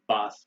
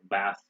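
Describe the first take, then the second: First: The word is said in a British accent. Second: The word is said in an American accent. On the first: "they say bath in Britain" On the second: "We say bath"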